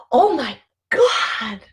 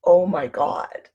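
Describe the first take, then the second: First: Gasp, then a high, slow, amazed "Oh my God,"; breathless, amazed "Oh my God,"; awed oh my God. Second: Slow, dull "Oh my God," said without wonder; a bored, dragged "Oh my God,"; flat oh my God. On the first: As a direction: let "Oh my God," break with wonder after a gasp. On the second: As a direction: drag "Oh my God," out flatly like a sigh. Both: Shown as a demonstration. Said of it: "the difference between".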